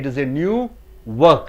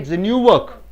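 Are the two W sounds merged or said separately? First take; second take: separate; merged. First: Both W sounds are pronounced separately. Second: The two W sounds merge into one. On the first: The speaker calls it wrong. "You don't say" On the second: The speaker calls it right. "You say"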